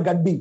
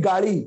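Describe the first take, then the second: First: গাড্ডি with a hard doubled ড; Hindi-style gaddi. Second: গাড়ি with flapped ড়; Bangla gari. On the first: Teacher imitating Hindi speakers: গাড্ডি with hard D. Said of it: "ওরা বলে গাড্ডি". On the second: Teacher contrasting Bangla and Hindi: গাড়ি with a flap. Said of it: "আমরা বলি গাড়ি". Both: Shown as a demonstration.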